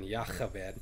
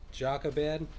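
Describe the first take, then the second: First: The name is said the Hebrew way. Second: The name is said the common English way. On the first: "the Hebrew pronunciation would have been Yachabed" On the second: "most people pronounce it Jochebed"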